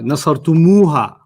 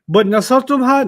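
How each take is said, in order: First: An 'oo' vowel comes between 'tum' and 'ha'. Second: No vowel comes between 'tum' and 'ha'. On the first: The speaker calls it right. "we're gonna add a u on it, and then add a ha" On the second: The speaker calls it wrong. "They don't like saying nasartumha"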